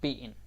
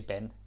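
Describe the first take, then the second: First: It is said with Danish pronunciation. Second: It sounds like the English name Ben. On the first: The speaker calls it right. "It's just Ben" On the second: The speaker calls it wrong. "please don't say Ben"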